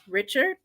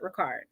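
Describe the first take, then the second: First: The middle consonant is a 'ch' sound. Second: The middle consonant is a 'k' sound. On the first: "Some people say his last name is pronounced Richard" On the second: "they pronounce it as Ricard"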